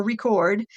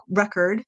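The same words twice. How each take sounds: First: "record" as the verb, stress on the second syllable, ri-CORD; verb pronunciation. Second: "record" as the noun, stress on the first syllable, REC-erd; noun pronunciation. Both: Shown as a demonstration. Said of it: "or record".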